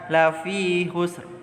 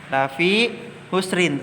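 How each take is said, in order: First: The last word stops short on the r. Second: The last word ends with an -in sound. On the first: The reciter stops at this point. "ketika waqaf dibaca lafi husr ... huruf ro-nya terdengar pendek" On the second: The phrase continues without stopping. "tertulis ayatnya"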